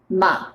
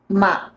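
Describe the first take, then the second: First: The pitch stays low and relaxed. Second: The same.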